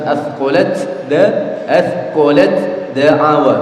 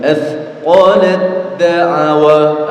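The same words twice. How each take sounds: First: Athqalat da'awa with a separate t before the d; wrong reading as written. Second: Athqalat da'awa chanted slowly, t merged into the d; slow chant, athqalat da'awa with the t swallowed; correct merged reading. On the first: Teacher demonstrates the wrong letter-by-letter reading. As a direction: say athqalat da'awa with the t sounded, slow. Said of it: "Harusnya kalau dibaca sesuai tulisan". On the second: Teacher models the correct recitation slowly. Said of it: "Tapi tidak boleh dibaca demikian". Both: Shown as a demonstration.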